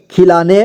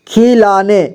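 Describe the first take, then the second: First: Said in the usual way. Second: खिलाने as खि-ला-ने; syllable by syllable. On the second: Shown as a demonstration. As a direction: sound out खिलाने in three parts. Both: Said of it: "एक ही बार में पढ़ेंगे".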